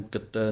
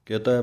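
First: ਕਿਤੈ with a doubled t, kittai; the wrong ਕਿਤੈ, with the tt doubled; wrong pronunciation. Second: ਕਿਤੈ with a short i and a long ai ending; correct pronunciation. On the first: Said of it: "ਇਹਨੂੰ ਕਿਤੈ ਨਹੀਂ ਕਹਿ ਦੇਣਾ". (ਗਲਤ ਉਚਾਰਨ ਕਿੱਤੈ) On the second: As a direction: say ਕਿਤੈ as ki-tai. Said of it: "ਕਿਤੈ ਪਾਠ ਬੋਲਣਾ ਹੈ". (ਕਿਤੈ ਦਾ ਸ਼ੁੱਧ ਉਚਾਰਨ) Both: Shown as a demonstration.

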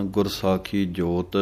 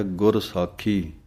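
First: ਗੁਰ ਸਾਖੀ ਜੋਤ run together, pause only after ਜੋਤ; wrong pause after ਜੋਤ. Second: ਗੁਰ ਸਾਖੀ then a full stop, slow; pause after ਸਾਖੀ. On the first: Retold or imitated. Teacher imitating how some readers pause wrongly. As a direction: read ਗੁਰ ਸਾਖੀ ਜੋਤ as one phrase, the common mistake. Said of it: "ਕਈ ਵਿਸਰਾਮ ਲਗਾ ਦਿੰਦੇ ਹਨ". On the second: Shown as a demonstration. Teacher showing the correct pause after ਗੁਰ ਸਾਖੀ. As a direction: close the phrase on ਸਾਖੀ with a falling tune. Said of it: "ਇੱਥੇ ਵਿਸਰਾਮ ਹੈ".

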